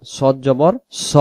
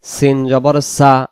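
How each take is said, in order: First: সদ জবর স, slow, with a thick rounded "so"; heavy Sad. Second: সিন জবর সা, slow, with an open thin "saa"; light Sin. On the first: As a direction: draw out a full, rounded স. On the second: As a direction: keep সা light and unrounded. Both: Shown as a demonstration. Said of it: "উচ্চারণ হবে দুই রকম".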